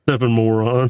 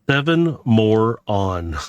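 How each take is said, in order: First: The phrase is said quickly, words running together. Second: The phrase is said at an unhurried pace.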